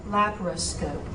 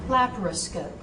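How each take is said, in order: No difference in how they are said.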